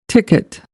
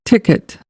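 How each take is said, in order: No difference in how they are said.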